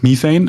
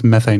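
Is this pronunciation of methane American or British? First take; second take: British; American. First: The word is pronounced the British way. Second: The word is pronounced the American way. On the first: "British is methane" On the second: "American is methane"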